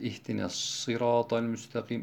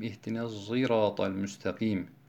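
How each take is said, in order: First: Sirat begins with a heavy, emphatic s sound. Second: Sirat begins with an s sound mixed with z. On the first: "Birinci okuyuş sad, bildiğiniz sad şeklinde" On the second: "Sad harfinin zay harfi ile karışık şekilde"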